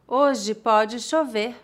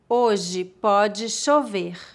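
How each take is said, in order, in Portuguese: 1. A frase é dita em velocidade normal. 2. A frase é dita devagar. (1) "outra vez mais naturalmente" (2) "uma vez mais devagar"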